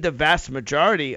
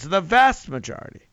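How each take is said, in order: First: Said in the usual way. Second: "vast" punched higher and louder; stress on VAST. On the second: Real, not acted. Radio host underlining how many African Americans, emphatic stress on "vast". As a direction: hit "vast" hard to underline the scale.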